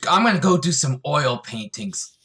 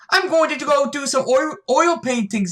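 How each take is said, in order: First: It is said without an Irish-style accent. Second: It is said in an attempted Irish-style accent.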